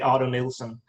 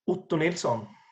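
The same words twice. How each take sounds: First: The name is pronounced the English way. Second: The name is pronounced the Swedish way. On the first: The name is said the way most people say it. "which everyone else does" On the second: The name is said as it is in its home language. "went with the with the Swedish pronunciation"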